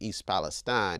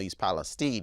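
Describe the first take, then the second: First: The name gets an ordinary, everyday pronunciation. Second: The name gets its precise, specific pronunciation. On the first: This is how an average English speaker would say it. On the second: This is the name as it is specifically meant to be said. "if you want to be specific"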